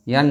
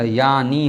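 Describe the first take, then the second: First: यानी cut short to "yaan", no final ee; mistaken form. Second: यानी with a full long final ee; corrected form. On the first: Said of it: "यानी नहीं होता". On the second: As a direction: give the correction यानी, "yaa-nee". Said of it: "यानी होता है". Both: Shown as a demonstration.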